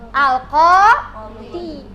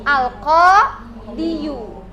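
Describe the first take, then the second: First: The word ends in a plain long i. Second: The word ends in a full -iyu ending. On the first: This is how the word is actually read. "Mana yang jadi contoh?" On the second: This is the underlying form it should have.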